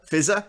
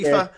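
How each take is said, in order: First: The word begins with an F sound. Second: The word begins with a P sound. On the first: This is how someone else says it. "my boss uh, refers to it as fizzer" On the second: This is how the speaker has been saying it. "I've been calling Piffer until someone pointed out that that's not how you, you pronounce it"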